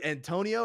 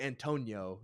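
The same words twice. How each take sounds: First: "Antonio" said an-TOH-nee-oh; "Antonio" with the i as its own syllable; four-syllable pronunciation. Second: "Antonio" said an-TOH-nyo; "Antonio" with the i as a quick glide; three-syllable pronunciation. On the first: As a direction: give "Antonio" a separate "nee-oh" ending. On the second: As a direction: run the end of "Antonio" together as "nyo". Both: Shown as a demonstration. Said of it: "how some people say it like that".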